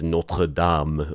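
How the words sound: The name is said with a French pronunciation. The speaker calls it right. "It's Notre Dame or whatever... my French accent's terrible"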